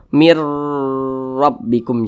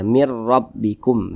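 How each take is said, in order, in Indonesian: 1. Bunyi sengau sebelum huruf r dibaca panjang. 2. Bunyi sebelum huruf r dibaca pendek. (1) "Jangan dibaca min atau mir rabbikum" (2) "dibaca pendek saja"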